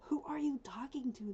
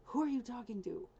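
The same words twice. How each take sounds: First: Voicing the dog in a higher whisper. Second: Higher, louder mock dog voice; voicing the dog. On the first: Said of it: "My dog's like". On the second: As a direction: play the puzzled dog, a bit loud. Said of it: "She's looking at me like".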